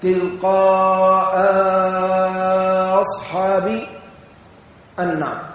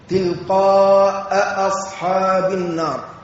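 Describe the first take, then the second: First: A lengthened vowel follows the first glottal stop. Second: Both glottal stops are fully pronounced. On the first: "بمدة بعد الهمزة الأولى" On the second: "بتحقيق الهمزتين"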